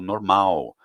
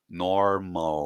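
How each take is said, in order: First: The final L sounds like a rounded U. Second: The final L is a clear tongue L. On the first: "eu vou fazer o biquinho para falar aquilo" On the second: "em inglês esse som é o som do L mesmo"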